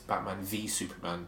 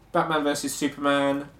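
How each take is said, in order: First: The middle word is said as the letter V. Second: The middle word is said as versus. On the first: The speaker calls it right. "it's Batman v" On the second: The speaker calls it wrong. "I actually said versus. It's not versus"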